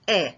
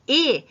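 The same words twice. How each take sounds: First: The vowel is said open, like è. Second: The vowel is said closed, like é. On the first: "je vais prononcer E" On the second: "Au lieu de prononcer E"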